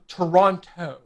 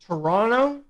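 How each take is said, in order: First: "Toronto" with both Ts sounded; American pronunciation. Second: "Toronto" without the second T; local Canadian pronunciation. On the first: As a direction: say "Toronto" fully, with a clear "-ron-toe". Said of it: "as Americans say it, or across the globe". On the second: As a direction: swallow the first vowel in "Toronto", end in "-ronno". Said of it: "If you're from here, you say it Toronto". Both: Shown as a demonstration.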